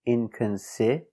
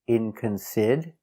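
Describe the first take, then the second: No difference in how they are said.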